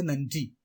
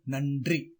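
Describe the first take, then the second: First: "நன்றி" close to nanji, ன்ற blended; correct pronunciation. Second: "நன்றி" as nan-dri, r sounded; wrong pronunciation. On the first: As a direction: say "நன்றி" without a rolled r. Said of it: "சரியான உச்சரிப்பு". (சரியான உச்சரிப்பு "நன்றி", ன்ற ஒரே ஒலி) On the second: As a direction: say "நன்றி" with hard d and rolled r. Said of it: "தவறு". (தவறான உச்சரிப்பு "நன்றி", நண்ட்ரி என்று) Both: Shown as a demonstration.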